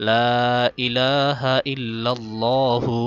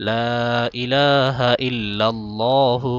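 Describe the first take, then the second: No difference in how they are said.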